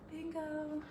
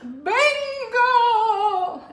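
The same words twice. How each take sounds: First: It is said flatly and without energy. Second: It is yelled with excitement.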